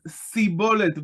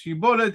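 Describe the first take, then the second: First: The word begins with an s sound. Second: The word begins with an sh sound. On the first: This is how the other group said it. "we read it as Sibolet" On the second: This is the standard form of the word. "They cannot pronounce it as Shibolet"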